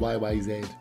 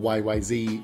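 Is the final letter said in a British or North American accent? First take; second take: British; North American. First: The last letter is said the British way. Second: The last letter is said the North American way.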